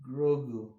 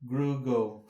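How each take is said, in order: First: The first vowel is o, the second u. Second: The first vowel is u, the second o. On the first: The speaker calls it right. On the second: The speaker calls it wrong.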